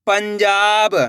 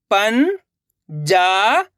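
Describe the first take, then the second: First: Said in the usual way. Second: पंजाब drawn out slowly; syllable by syllable. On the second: Shown as a demonstration. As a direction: sound out पंजाब. (पंजाब को अक्षर-अक्षर बोलना) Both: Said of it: "अब आगे देखिए".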